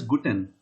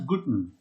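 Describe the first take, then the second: First: It is said in full, carefully and formally. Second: It is said in a casual, reduced everyday way. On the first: This is the textbook way, not everyday speech. The speaker calls it wrong. "this is not spoken as Guten" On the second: This is how people say it in daily speech. The speaker calls it right. "this is spoken as Guten, like this"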